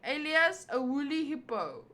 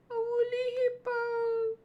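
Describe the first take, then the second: First: Said in the usual way. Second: Mock squeaky repeat. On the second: Shown as a demonstration. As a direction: parrot woolly hippo back in a tiny high voice.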